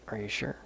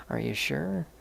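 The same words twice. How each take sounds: First: Said in the usual way. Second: Higher, louder doubtful check, rising at the end; pitched-up, pushy rising question; imitated insistent question. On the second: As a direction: mimic a sister pressing the point. Sister asks once more, pressing.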